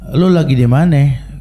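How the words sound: The question is asked in a calm, friendly way. The friend is simply asking kindly. "temennya nanya baik-baik"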